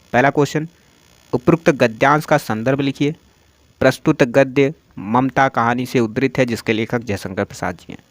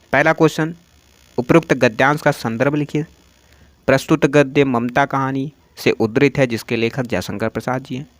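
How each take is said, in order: Both takes have the same delivery.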